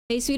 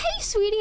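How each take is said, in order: First: It sounds openly aggressive. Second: It sounds sarcastically sweet and creepy.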